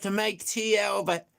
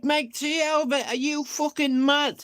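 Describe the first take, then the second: First: Said in the usual way. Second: High, stunned repeat; high disbelief. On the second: Retold or imitated. Repeating the mate's words back to him, high with disbelief. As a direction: throw the words back in shock.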